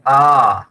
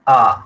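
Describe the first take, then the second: First: The vowel is stretched out very long. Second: The vowel is held about twice as long. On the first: "प्लुत भी करना है तो" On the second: "दीर्घ लंबे काल तक उच्चारण करना है तो मैं कर सकता हूँ"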